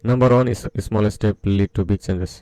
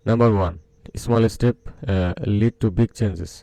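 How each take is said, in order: First: It runs straight on with no pause. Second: There is a pause after 'number one'. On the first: The speaker calls it wrong. "একদম সোজা সাপটা বলে দিবে" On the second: The speaker calls it right. "এভাবে কথা কিন্তু শুনতে ভালো লাগবে"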